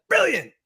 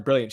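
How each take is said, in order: First: High-pitched, exclaimed imitation; mock British exclamation. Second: Said in the usual way. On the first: Host imitating British viewer's comment, mock exclamation. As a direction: exclaim it way up high like an excitable Brit. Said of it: "hearing her exclaim brilliant". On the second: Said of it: "can't just say the word brilliant".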